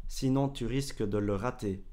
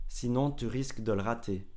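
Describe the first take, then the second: Both takes have the same delivery.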